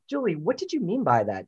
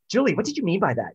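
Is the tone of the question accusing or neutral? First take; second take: neutral; accusing. First: The question sounds calm and neutral. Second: The question sounds sharp and accusing. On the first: The asker simply wants to know what was meant. The speaker calls it right. "neutral tone, ask the question and just see what the response is" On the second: The asker is confronting and blaming the other person. The speaker calls it wrong. "watching your tone, like, ... No, that's not how you do it"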